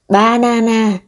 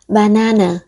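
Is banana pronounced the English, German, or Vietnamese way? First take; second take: Vietnamese; German. First: The word is pronounced in a Vietnamese way. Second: The word is pronounced in a German way. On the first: "theo tiếng Việt" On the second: "theo tiếng Đức"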